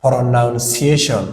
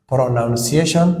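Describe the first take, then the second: First: Pronunciation stretched out very slowly with a falling end; slow model word for students; very slow demo. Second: Said in the usual way. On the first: Shown as a demonstration. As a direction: drag out every syllable of Pronunciation. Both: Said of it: "Lesson waa cashar".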